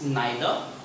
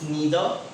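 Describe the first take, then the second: First: It is said in a British accent. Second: It is said in an American accent. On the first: "when we talk about American" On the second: "if we talk about American English"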